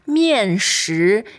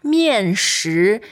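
First: The second syllable has a rising tone. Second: The second syllable has a rising tone.

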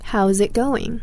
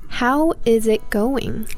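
First: How and is merge into one syllable ending in z. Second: How and is are said as two full words. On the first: "With how, though, it is a Z" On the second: "we have some other words that we can contract is with"

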